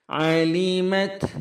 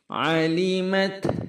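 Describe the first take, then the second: The two takes are said the same way.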